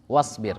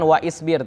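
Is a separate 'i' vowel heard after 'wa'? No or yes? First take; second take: no; yes. First: The 'wa' links straight into 's'. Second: A separate 'i' vowel follows 'wa'. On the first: The speaker calls it right. "tapi wasbir" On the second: The speaker calls it wrong. "jangan waisbir"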